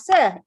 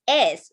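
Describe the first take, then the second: First: The s sound is followed by a vowel. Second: The s sound is hissed alone, without a vowel. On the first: The speaker calls it wrong. "it don't make the sound sir" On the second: The speaker calls it right. "It's S"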